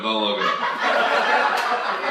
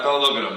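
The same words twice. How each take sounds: First: Drawn out slowly through a laugh; slow, amused warning; slow laughing plea. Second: Said in the usual way. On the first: Real, not acted. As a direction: stretch it out, giggling.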